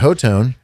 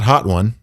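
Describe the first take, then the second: First: The name is said as ho-tone. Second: The name is said as hot one. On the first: The speaker calls it right. "that's how you say it" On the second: The speaker calls it wrong. "It's not Hot One"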